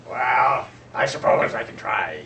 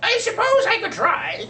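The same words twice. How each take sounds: First: A grudging raven, slower and darker than the seagull; lower raven voice. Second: Much higher and louder squeaky voice on "I suppose I could try"; a hesitant seagull squeaking his reluctant offer. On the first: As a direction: lower and louder, a deep reluctant raven on "I suppose I can try". Raven answers the birds. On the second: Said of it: "said Seagull in his squeaky voice". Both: Acted.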